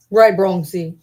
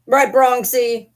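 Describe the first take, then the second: First: Said in the usual way. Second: Pet talk. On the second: Real, not acted. Talking baby-talk to pet dog.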